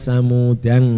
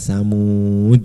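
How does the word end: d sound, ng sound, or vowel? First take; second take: ng sound; d sound. First: The word ends in an added ng sound. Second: The word ends in a stopped d sound. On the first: The word is read with tanwin. "sebagian ulama ada yang membaca tanwin" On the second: The reading stops on this word. "Kalau berhenti"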